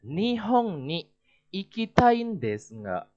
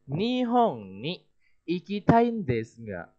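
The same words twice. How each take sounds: First: Ikitai desu ga said flat and level, falling at the end; flat falling tune on desu ga; flat statement intonation. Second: Nihon ni slow and lifted, trailing off open; slow with an unfinished hanging tune; rising question intonation. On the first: Teacher demoing a flat statement to students. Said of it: "Coba diperhatikan minasan". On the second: Teacher demoing the hanging intonation to students. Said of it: "Dengan intonasi yang seperti ini". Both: Shown as a demonstration.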